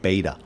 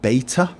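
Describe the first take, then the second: First: The middle consonant sounds like a soft D. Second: The middle consonant is a crisp T sound. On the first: "It always sounds like a D, like beta" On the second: "It never sounds like beta when an American says it"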